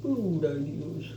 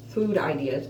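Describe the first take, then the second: First: "Food" slowly and carefully, pushing the F without front teeth; retry "Food ideas" slowly, forcing the F with no teeth; missing front teeth. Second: "food" with a weak, lisped F through missing teeth; missing front teeth. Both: Real, not acted. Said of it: "I can't say F's without my teeth".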